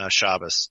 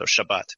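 First: The stress is on the first syllable, ending in s. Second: The stress is on the last syllable, ending in t. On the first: "shifts the syllable emphasis to the first syllable" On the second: "in Hebrew"

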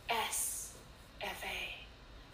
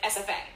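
First: There is a pause after each letter. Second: The letters are said together without pauses.

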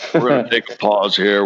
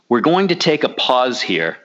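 First: It is said in an imitated, put-on voice. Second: It is said in the speaker's normal voice.

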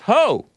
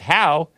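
First: The vowel sounds like the one in 'go'. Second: The vowel sounds like the one in 'cow'. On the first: The speaker calls it right. "It's pronounced ho" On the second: The speaker calls it wrong. "is not pronounced how"

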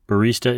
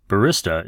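First: The word is said the common American way. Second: The word is said the common British way. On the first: "a common pronunciation in the United States and Italy" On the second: "the more common usage in the UK and Western Europe"

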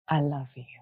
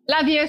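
First: It is said slowly in a lower, deeper voice. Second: It is said quickly and lightly, in passing. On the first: The speaker truly means it. The speaker calls it right. "My voice drops. My whole demeanor changes" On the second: It is a routine goodbye. The speaker calls it wrong. "That very casual"

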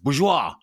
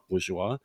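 First: The stress is on the last syllable. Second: The stress is on the first syllable. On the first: "They always weirdly emphasize the last syllable" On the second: "it's not bourgeois"

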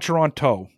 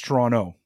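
First: The second T sound is clearly pronounced. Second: The second T sound is dropped entirely. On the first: The speaker calls it wrong. "It's not Toronto" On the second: The speaker calls it right. "It's Toronto without a T. You don't pronounce the T"

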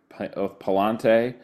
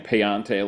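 First: The middle consonant is an L sound. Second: The middle consonant is a Y sound. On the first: The speaker calls it right. "That's the right way to pronounce it" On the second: The speaker calls it wrong. "I was saying Payante last year, and we got people complaining"

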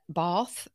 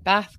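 First: It is said with a Southern English accent. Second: It is said with a non-Southern English accent.

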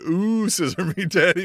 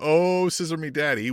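First: It is read in a suggestive, teasing way. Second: It is read in a plain, neutral way.

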